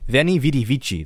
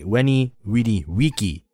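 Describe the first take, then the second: First: It uses an Italian-like church Latin pronunciation. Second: It uses a reconstructed ancient Roman pronunciation. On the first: "That's how, like, you would kind of say it in an ecclesiastical way" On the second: "in classical, it would be more like"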